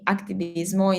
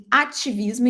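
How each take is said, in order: First: "activismo" with a K before the T; Spanish pronunciation. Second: "ativismo" with no C, Portuguese vowels; Portuguese pronunciation. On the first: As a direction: say "activismo" the Spanish way, full final O. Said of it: "in Spanish". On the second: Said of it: "in Portuguese". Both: Shown as a demonstration.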